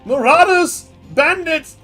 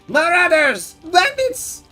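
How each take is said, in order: First: It is said in the speaker's normal voice. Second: It is said in a put-on gnome voice.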